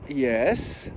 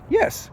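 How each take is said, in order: First: A hesitant, drawn-out yes after a pause. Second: A short, clear yes with no hesitation. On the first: Something is wrong and the person has doubts. "The tone was pause, yes, long drawn" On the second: The answer is fully sure. "it's a simple yes. The answer is very clear"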